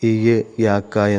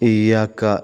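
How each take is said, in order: First: The doubled Y is split into two parts. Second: The doubled Y is held as one sound. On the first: The speaker calls it wrong. "യാഇന്റെ കെട്ടഴിച്ചിട്ട് ... ഖിറാഅത്ത് തെറ്റാണ്" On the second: The speaker calls it right. "ഇയ്യാക്ക എന്ന് തന്നെ ഓതേണ്ടതാണ്"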